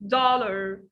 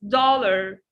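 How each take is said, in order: First: The first vowel is an open 'ah'. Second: The first vowel is an open 'ah'.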